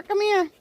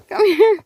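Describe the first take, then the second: First: Said in the usual way. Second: Calling out. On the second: Real, not acted. Calling again, louder.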